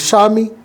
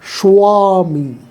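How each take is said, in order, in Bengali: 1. প্রথম s-এর পরে কোনো w ধ্বনি আসে না। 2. প্রথম s-এর পরে একটি w ধ্বনি আসে। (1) "আমরা বলি" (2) "উচ্চারণ হওয়া উচিত"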